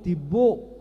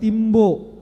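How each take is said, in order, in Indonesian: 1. Kata itu diucapkan tanpa m sebelum b. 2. Kata itu diucapkan dengan m sebelum b. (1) "Itu Bataknya tib, tib, tibo" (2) "enggak timbo"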